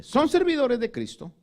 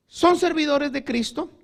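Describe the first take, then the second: First: "Son servidores de Cristo" with weight on "servidores", falling at the end; firm statement. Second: "Son servidores de Cristo" said louder with a rising finish; emphatic reading. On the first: Preacher rereading Paul's words, falling and firm. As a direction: settle it down with a firm fall. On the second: Preacher reading Paul's challenge to rivals, loud and rising. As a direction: lift "Son" and leave it hanging. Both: Shown as a demonstration. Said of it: "y mire cómo lo dice".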